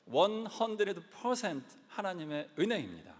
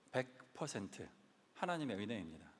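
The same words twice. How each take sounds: First: 은혜입니다 hit hardest, held and falling; emphatic proclamation. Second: 하나님의 은혜입니다 said softer and lower, dropping the voice; quiet confession. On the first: Pastor declaring to the congregation, stress on 은혜입니다. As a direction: proclaim 원 헌드레드 퍼센트 하나님의 은혜입니다 with full weight on 은혜입니다. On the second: Pastor quietly crediting God before the congregation, hushed. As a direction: murmur 하나님의 은혜입니다 almost to himself. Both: Real, not acted.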